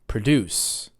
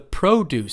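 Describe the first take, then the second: First: The stress is on the second syllable. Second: The stress is on the first syllable. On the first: It means to make something. "it means to make something" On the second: It means fruits and vegetables. "it's stressed on the first syllable because it's a noun"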